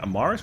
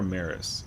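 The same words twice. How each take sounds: First: The middle syllable sounds like 'mar'. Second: The middle syllable sounds like 'mare'. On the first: The speaker calls it right. "First one? Oh, it's a Mars. Mar like the planet" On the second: The speaker calls it wrong. "Who calls it mares though"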